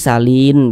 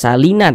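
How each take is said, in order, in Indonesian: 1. Kata ini berakhir pada bunyi n mati. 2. Kata ini berakhir dengan vokal tambahan. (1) "tapi salin begitu" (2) "tidak salina"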